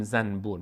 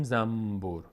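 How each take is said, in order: First: "زنبور" said zan-bur with clear n; n kept before b. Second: "زنبور" said zambur with humming m; n turned to m. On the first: Teacher showing what nobody says, "زنبور" as zan-bur. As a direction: sound a distinct n before the b in "زنبور". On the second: Teacher showing everyday Persian, "زنبور" as zambur. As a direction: replace the n in "زنبور" with a held m. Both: Shown as a demonstration.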